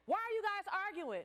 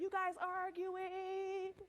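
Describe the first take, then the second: First: Principal's question. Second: Slow suspicious question. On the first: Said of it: "the principal was like". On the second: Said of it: "somebody came out". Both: Retold or imitated.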